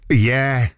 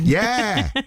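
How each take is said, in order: First: It is said flatly, without feeling. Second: It is said with lively feeling.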